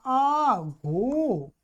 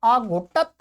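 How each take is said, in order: First: आघोटत with long, stretched vowels; slow model form. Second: Said in the usual way. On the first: Shown as a demonstration. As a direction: draw out आघोटत syllable by syllable. Slowly models new form.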